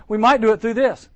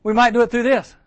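First: Emphatic. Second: Higher and louder, pressing the point; louder emphatic. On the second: Preacher repeating his point to campers, louder. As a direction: land it harder on the crowd. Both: Shown as a demonstration. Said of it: "This big letter that I get".

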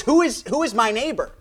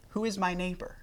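First: Higher, louder mocking challenge; sarcastic. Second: Said in the usual way. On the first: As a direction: throw the question back with a sneer. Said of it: "almost in a, uh, maybe a sarcastic kind of tone". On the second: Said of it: "maybe a sarcastic kind of tone".

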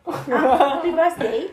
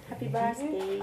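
First: Loud laughing birthday wish; excited birthday greeting. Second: Said in the usual way. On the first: Real, not acted.

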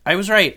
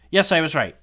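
First: Higher, louder crowing repeat; even more excited. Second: High, loud burst of triumph; yes, you nailed it; excited. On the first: To viewers, crowing that her guess was right. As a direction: crow it, fully triumphant. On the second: To viewers after checking the cast list, triumphant. Confirming her guess about the cast. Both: Real, not acted.

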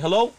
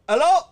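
First: Higher, louder phone greeting; a raised, questioning hello as the caller; polite young caller. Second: Very high, loud phone hello; hammed-up grandmother picking up; friend's grandmother answering. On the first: Retold or imitated. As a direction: call up a friend's house. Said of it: "I used to call there". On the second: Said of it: "she'd answer the phone".

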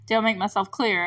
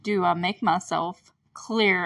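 First: Retold Hopper question. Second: Slow, mild mock intimidation, slightly lower; lightly voiced stern sheriff, drawn out; intimidating Hopper. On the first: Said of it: "he stands up ... looks down at them". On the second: Hopper looming over the kids, slow mock intimidation. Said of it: "looks down at them".

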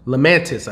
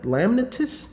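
First: "Lamantis" said firmly with stress on "man"; landing on "Lamantis" with a fall; settled pronunciation. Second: "Lamnatus" guessed with a high questioning rise; testing "Lamnatus?" as a question; unsure pronunciation. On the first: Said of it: "I think it's Lamantis". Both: Real, not acted.

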